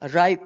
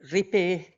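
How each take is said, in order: First: The word is pronounced with English sounds. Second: The word is pronounced with Finnish sounds. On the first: "if it's pronounced the English way" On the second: "if it's pronounced the Finnish way"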